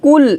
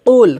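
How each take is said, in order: First: "কুল" com K comum na frente da boca; K leve, errado. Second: "কুল" com Q grave do fundo da boca; Q espesso. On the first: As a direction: diga "কুল" com um ক fino, sem peso. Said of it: "এটা হবে না". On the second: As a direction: engrosse o ক de "কুল" como um qaf árabe. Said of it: "কফটা আমাদেরকে মোটা করে উচ্চারণ". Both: Shown as a demonstration.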